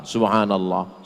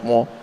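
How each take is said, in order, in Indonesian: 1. Diucapkan pelan dan jelas. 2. Diucapkan cepat dan tidak jelas. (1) "Jangan cepat-cepat" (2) "banyak saya tengok orang zikir cepat"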